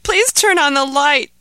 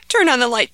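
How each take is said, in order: First: Even higher and louder, pleading harder; desperate begging. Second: Higher and louder, urgent plea; frightened begging. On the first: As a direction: beg again, more desperate. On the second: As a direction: beg for the light, scared of the dark. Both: Acted. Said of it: "begged Ahmed".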